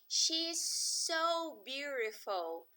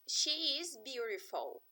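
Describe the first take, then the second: First: It is said with emphatic, exclaiming emphasis. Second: It is said as a plain statement.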